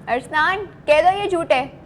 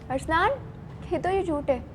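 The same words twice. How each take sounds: First: It is said in an angry tone. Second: It is said in a surprised tone.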